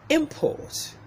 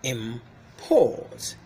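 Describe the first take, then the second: First: The stress is on the first syllable. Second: The stress is on the second syllable. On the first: It is used as a noun. "If the word is a noun, the first syllable comes is pronounced with a louder with a higher pitch" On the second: It is used as a verb. "Look at the verb form"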